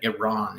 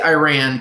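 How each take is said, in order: First: It uses the educated-sounding pronunciation. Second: It uses the less educated-sounding pronunciation. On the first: This is the proper form of the name. The speaker calls it right. "Iran is the proper pronunciation" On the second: People will still know what is meant. The speaker calls it wrong. "you'll sound less educated than me"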